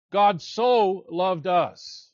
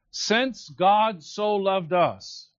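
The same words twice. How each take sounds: First: Very slow, with "so" drawn out and stressed; God SO loved us, slowly savoured. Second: Very slow, with the weight on "God"; "Since God so loved us" read slowly with "God" stressed. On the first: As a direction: make "so" the heart of the line. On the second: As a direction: draw it out and lean on "God". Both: Shown as a demonstration. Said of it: "So is emphatic here".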